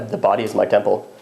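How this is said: It is said in a deep voice. The speaker calls it wrong.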